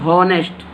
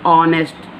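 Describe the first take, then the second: First: The word begins with an h sound. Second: The word begins directly with a vowel. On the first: The speaker calls it wrong. "हॉनेस्ट बोलेंगे तो ये wrong हो जाएगा" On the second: The speaker calls it right. "We pronunciation start with ओ"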